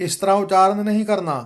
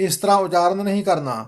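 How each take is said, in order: The two takes are said the same way.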